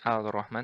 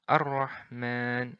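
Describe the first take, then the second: First: The L is pronounced clearly before the R. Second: The L merges into a doubled R sound. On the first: The speaker calls it wrong. "bukan Al-Rahman" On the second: The speaker calls it right. "langsung melebur ke huruf ra"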